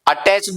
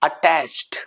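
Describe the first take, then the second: First: The word ends with an extra syllable. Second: The word ends with a plain t-sound. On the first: The speaker calls it wrong. "अटैच्ड नहीं" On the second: The speaker calls it right. "सही and effective pronunciation होगा यहां पे"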